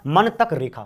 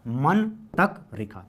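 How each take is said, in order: First: Said in the usual way. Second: Slow, drawn-out मन तक रेखा; slow mnemonic. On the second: Shown as a demonstration. Teacher repeating the mnemonic to students, slower. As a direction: stretch मन तक रेखा out slowly. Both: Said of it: "क्या?".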